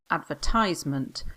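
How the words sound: It is said with an American pronunciation.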